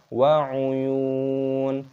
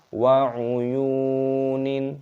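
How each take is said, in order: First: The word ends on a stopped -un sound. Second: The word ends with an extra -nin syllable. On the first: The speaker calls it right. "tapi wa'uyun" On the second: The speaker calls it wrong. "jangan dibaca wa'uyunin"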